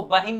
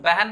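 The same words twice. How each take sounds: First: 'बहिन' with a clear i, ba-hin; spelling pronunciation. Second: 'बहन' as beh-en, vowels softened to e; colloquial pronunciation. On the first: Teacher showing the written form, 'बहिन' as ba-hin. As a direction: sound out the i in 'बहिन'. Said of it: "बहिन नहीं बोल के". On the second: Teacher showing spoken Hindi, 'बहन' as beh-en. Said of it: "हम लोग बहन बोलते हैं ना". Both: Shown as a demonstration.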